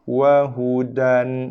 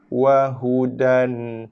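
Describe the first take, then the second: The two takes are said the same way.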